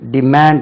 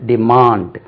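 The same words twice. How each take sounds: First: The second vowel is short. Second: The second vowel is long, like 'aa'. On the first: The speaker calls it wrong. "இல்லாது" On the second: The speaker calls it right. "தமிழ்ல உள்ள ஆ மாதிரி உச்சரிக்க வேண்டும்"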